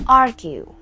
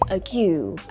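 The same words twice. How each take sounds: First: The stress falls on the usual syllable. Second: The stress falls on an unusual syllable. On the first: The speaker calls it right. "That was is argue" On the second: The speaker calls it wrong. "I mispronounced a word"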